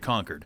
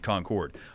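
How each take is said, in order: First: It sounds just like the word conquered. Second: It does not sound like the word conquered. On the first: This is how people in New Hampshire say it. "we always say Concord" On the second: This is how people in North Carolina say it. "they pronounce it"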